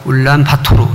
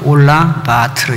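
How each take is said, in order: First: The name is said the way outsiders say it. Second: The name is said the way locals say it. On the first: This is how people who have not been to Mongolia say it. "몽골 안 간 사람은 울란바토르 이렇게 발음하고" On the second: This is how it is said in Mongolia itself. "본토 발음은 올란바토르 이렇게 되는데요"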